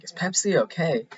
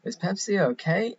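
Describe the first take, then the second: First: Higher, torn voice asking if Pepsi is okay; mock-conflicted Steve Carell, pitched up; imitating Carell's puzzled falling question. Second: Higher still, rising as if unsure; mock-conflicted Steve Carell asking again; imitating Carell's puzzled rising question. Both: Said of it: "and he's like".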